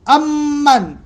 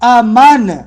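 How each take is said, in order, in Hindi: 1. "m" ध्वनि दोहरी है और लंबी खिंचती है। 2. "m" ध्वनि एक है और छोटी है। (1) "मीम पर तशदीद है" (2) "अमन तखफीफ के साथ"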